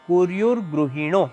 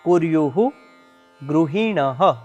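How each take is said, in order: First: The two words are run together as one. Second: The two words are said separately, unlinked. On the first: "ભેગો શબ્દ" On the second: "બે શબ્દ છૂટા છૂટા છે"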